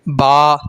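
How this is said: It ends in an 'a' vowel, Arabic style. The speaker calls it right. "बल्कि क्या पढ़ें? बा, ... इस तरीके से पढ़ें"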